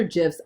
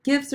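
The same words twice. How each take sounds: First: "gifs" said like "jifs"; soft G. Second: "gifs" with a hard G. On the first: Unsure how to name the images, soft-G "gifs". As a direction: say "gifs" with a J sound at the start. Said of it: "I never know". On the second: Weighing two pronunciations for images to add, hard-G "gifs". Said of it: "What's the debate?". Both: Shown as a demonstration.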